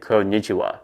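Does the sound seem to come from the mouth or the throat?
throat. The sound is made deeper in the throat. The speaker calls it right. "you should say konnichiwa. I think you should um, use your throat"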